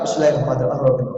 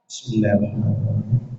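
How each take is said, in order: First: It is recited quickly and hurriedly. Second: It is recited slowly and calmly.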